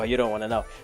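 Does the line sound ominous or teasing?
ominous. It is said in a grave, ominous way. Something truly frightening happened. The speaker calls it right. "the trouble is that they don't say it like that"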